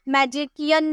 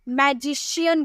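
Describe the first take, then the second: First: The middle consonant is a k sound. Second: The middle consonant is an sh sound. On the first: The speaker calls it wrong. "मैजिकियन नहीं बोलते हैं" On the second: The speaker calls it right. "मैजिशियन बोलते हैं"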